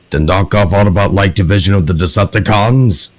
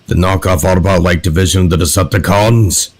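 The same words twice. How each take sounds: First: The voice has its gruffness held back. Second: The voice has strong, present gruffness. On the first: "I'm trying the hardest I can to hold back the gruff" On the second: "when I do the voice normally"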